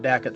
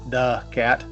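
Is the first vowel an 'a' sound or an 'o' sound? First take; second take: a sound; o sound. First: The first vowel is an 'a' sound. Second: The first vowel is an 'o' sound. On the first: The speaker calls it right. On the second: The speaker calls it wrong.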